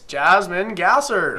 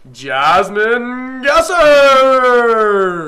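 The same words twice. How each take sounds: First: The name is said quickly. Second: The name is drawn out slowly.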